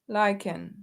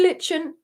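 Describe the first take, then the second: First: The first vowel is long, as in liking. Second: The first vowel is short, as in kitchen. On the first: This is the current way to say it. "Now it's lichen" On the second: This is the older way to say it. "so it used to be lichen"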